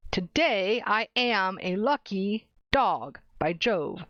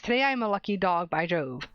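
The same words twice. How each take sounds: First: Slow, every other syllable hit; "Today I am a lucky dog" beat out syllable by syllable; stretched da-DUM rhythm; slow iambic stress. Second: Every other syllable stressed; da-DUM rhythm on Today I am a lucky dog; iambic reading. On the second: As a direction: tap out the iambic beat. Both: Shown as a demonstration. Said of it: "Every other syllable is stressed".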